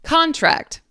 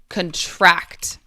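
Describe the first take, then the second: First: The stress is on the first syllable. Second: The stress is on the second syllable. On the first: It is a noun. "but then this one" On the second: It is a verb. "because it is a verb, we put the emphasis second"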